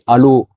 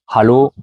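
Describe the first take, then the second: First: The first H sound is left silent. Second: The first H sound is clearly breathed. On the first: The speaker calls it wrong. "Si tu dis Hallo, tu peux euh, tomber sur quelqu'un qui ne te comprend pas" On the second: The speaker calls it right. "il faut essayer de bien le prononcer"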